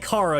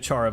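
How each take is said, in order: First: The name begins with a hard K sound. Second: The name begins with a CH sound. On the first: The speaker calls it right. "I say Kara because I think it's short for character" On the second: The speaker calls it wrong. "I pronounced it Chara by mistake"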